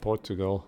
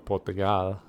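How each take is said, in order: First: It is said with a plain English pronunciation. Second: It is said with a local Portuguese pronunciation.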